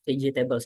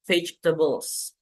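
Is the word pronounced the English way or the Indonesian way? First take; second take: Indonesian; English. First: It is pronounced the Indonesian way. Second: It is pronounced the English way. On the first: The speaker calls it wrong. "salah mengucapkan dengan dengan pengucapan bahasa Indonesia" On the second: The speaker calls it right. "seharusnya kita bilang"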